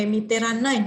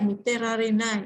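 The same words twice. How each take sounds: First: "miteranai" with a long doubled n, "miterannai"; casual run-together "miteranai", n lengthened; spoken contraction. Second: "miterararenai" with the "re" syllable fully sounded; uncontracted "miterararenai", each syllable separate; full form. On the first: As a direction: contract "miteranai" colloquially, holding the n. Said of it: "hanashi kotoba ya". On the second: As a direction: give "miterararenai" in full, without doubling the n. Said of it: "bentuk tulisan dari". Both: Shown as a demonstration.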